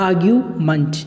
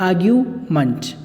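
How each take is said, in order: The two takes are said the same way.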